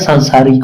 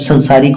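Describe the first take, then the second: First: The first vowel is long. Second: The first vowel is short. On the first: The speaker calls it right. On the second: The speaker calls it wrong.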